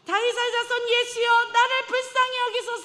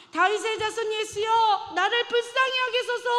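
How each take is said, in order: First: Very high, loud plea for mercy; the beggar crying louder to Jesus despite the rebuke; even louder cry. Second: High, loud plea to Jesus; a blind beggar's loud cry for mercy; desperate loud cry. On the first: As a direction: shout it out over the crowd. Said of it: "더 크게 이야기하죠". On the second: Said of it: "미친 듯이 큰 소리를". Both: Acted.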